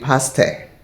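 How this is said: It is said with a Ghanaian pronunciation. "the Ghanaians will say pastor"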